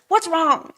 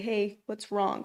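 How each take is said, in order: First: It is said in a condescending tone. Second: It is said in a gentle, caring tone.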